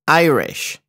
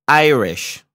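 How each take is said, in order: Both takes have the same delivery.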